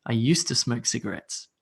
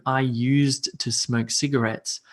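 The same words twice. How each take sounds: First: "used to" said as "use-tu", with the D dropped; spoken form. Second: "used to" with both D and T said clearly; written form. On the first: Teacher showing how natives really say it, D dropped. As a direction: drop the D so "used to" sounds like "yoosta". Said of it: "So I just say used to". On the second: Teacher reading the written form with a clear D and T. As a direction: sound the D and the T in "used to" slowly. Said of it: "it would say used to". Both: Shown as a demonstration.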